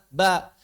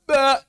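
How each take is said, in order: First: The syllable is said lightly, like normal speech. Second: The syllable is said with exaggerated, heavy force. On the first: The speaker calls it right. "Kita ngomong mengeluarkan ba gimana?" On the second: The speaker calls it wrong. "Pas baca Al-Quran, ... Nggak begitu"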